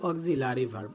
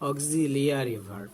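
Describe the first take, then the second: First: There is no 'ee' sound after the 'l'. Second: There is an 'ee' sound after the 'l'. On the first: The speaker calls it wrong. "তো আমরা বলি অক্সিলারি verb, অনেকেই বলি" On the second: The speaker calls it right. "we should not say but say auxiliary verb"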